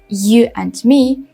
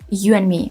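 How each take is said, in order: First: The final d of 'and' is pronounced. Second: The final d of 'and' is dropped. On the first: "instead of saying" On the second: "you just drop sound at the end"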